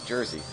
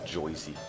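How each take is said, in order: First: The first vowel sounds like 'er'. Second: The first vowel sounds like 'oy'. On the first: The speaker calls it right. "It's Jersey. How else you do pronounce it?" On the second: The speaker calls it wrong. "I don't know anybody who says it's Joyzy"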